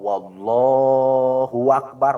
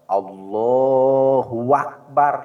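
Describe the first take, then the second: First: A w sound comes before Allah. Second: A w sound comes between Allah and Akbar. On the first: "Atau dari lapad Allah ada wawu" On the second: "Atau antara Allah dan Akbar di tengahnya ada wawu. Lepat"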